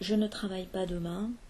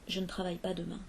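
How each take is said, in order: First: The word ne is pronounced in full. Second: The word ne is contracted.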